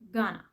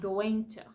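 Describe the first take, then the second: First: The words are blended into one reduced form. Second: Both words are said fully and separately. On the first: "they say and pronounce this word gonna" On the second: "Things like going to"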